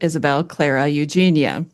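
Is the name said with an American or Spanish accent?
American. The name is said with an American accent.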